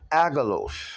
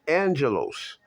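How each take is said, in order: First: It is read as spelled, with no n sound. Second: It is said with an n sound before g. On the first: The speaker calls it wrong. "I spelled agalos" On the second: The speaker calls it right. "it's actually pronounced angelos"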